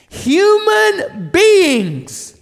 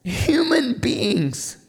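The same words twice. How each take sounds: First: A soaring preacher's declaration; proclaimed reveal. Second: Softer and very slow, almost breathed; quiet awe-filled pause on each word; hushed reveal. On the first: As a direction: proclaim it to the whole room. Repeat of hushed reveal, now proclaimed. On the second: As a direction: let the answer land in a hush. Hushed reveal, then repeated loudly. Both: Acted.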